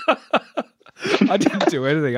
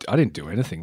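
First: Slow, high, laughing through the words; laughing denial. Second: Said in the usual way. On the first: Real, not acted. Guest laughs off the host's praise, laughing. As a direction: laugh it off while insisting.

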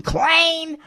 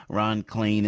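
First: Shrill mock squeak on the name; mocking high squeal. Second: Said in the usual way. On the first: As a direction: jeer the name in a falsetto.

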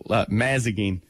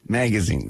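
First: "Mazagine" with m and z swapped, MAZ-a-gine; wrong pronunciation. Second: "magazine" said right, MAG-a-zine; correct pronunciation. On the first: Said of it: "I couldn't change it". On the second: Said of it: "I could, magazine". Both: Shown as a demonstration.

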